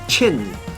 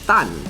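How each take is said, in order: First: The surname is said in Hakka, as Chin. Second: The surname is said in Hokkien, as Tan. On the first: "in Hakka Fa is Chin" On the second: "In Hokkien, Ui, that is Tan"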